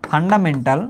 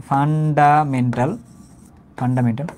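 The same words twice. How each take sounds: First: Said in the usual way. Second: fundamental slowly, broken into syllables; dictation pace. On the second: Shown as a demonstration. Teacher explaining what F stands for, fundamental slowly by syllable. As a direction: spell out fundamental by sound, unhurried. Teacher repeats term for writing down.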